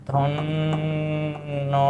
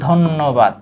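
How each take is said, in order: First: "ধন্যবাদ" very slow and soft, the n held long; doubled-consonant demo. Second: Said in the usual way. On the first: Shown as a demonstration. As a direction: hum through the double n of "ধন্যবাদ", then break off each syllable. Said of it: "দন্ত ন দ্বিত্ব হয়েছে". ("ধন্যবাদ" ন টেনে দ্বিত্ব করে ধীরে বলা) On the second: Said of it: "এটা কি?".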